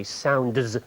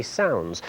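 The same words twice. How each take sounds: First: "sounds" with a clearly pronounced D before the final z; over-articulate the D in "sounds"; D fully sounded. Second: "sounds" said naturally as "sowns", no D; D dropped. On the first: Presenter showing what we don't say, "sounds" with the D carefully sounded. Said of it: "manage without that D". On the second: Presenter showing what we really say, "sounds" with the D left out. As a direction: let "sounds" run from n straight into z. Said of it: "we say sounds". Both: Shown as a demonstration.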